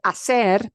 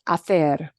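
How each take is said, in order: First: The c is said with an s sound. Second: The c is said with a th sound. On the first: "We all say hacer" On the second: "in Spain itself... it's going to sound like this. Th"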